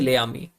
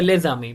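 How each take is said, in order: First: The two words are said without a z link. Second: A z sound links the two words together. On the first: The speaker calls it wrong. "We can not से ले आमी" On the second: The speaker calls it right. "We will have to से लेज आमी"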